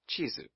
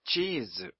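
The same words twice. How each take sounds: First: The 'i' vowel is short. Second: The 'i' vowel is long. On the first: The speaker calls it wrong. "not chizu" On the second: The speaker calls it right. "Double I as in chizu"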